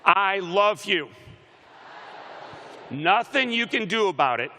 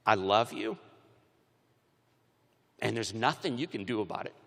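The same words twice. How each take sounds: First: Loud, high declaration of love; rallying shout. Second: Low, understated declaration of love; tender father. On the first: Shown as a demonstration. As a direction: belt it out for the crowd to repeat. Leading crowd in declaring love. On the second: Retold or imitated. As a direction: say it gently and low, as a dad would. Father's tender words retold.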